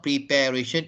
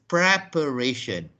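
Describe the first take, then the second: First: "preparation" as pree-PAIR-ation; wrong pronunciation. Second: "preparation" as prep-uh-RAY-shun; short "prep" and weak second syllable in "preparation"; correct pronunciation. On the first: Teacher showing what not to say, pree-PAIR-ation. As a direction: say "prepare" intact within "preparation". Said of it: "it's not preparation". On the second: Teacher correcting the error, prep-uh-RAY-shun. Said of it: "it is preparation". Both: Shown as a demonstration.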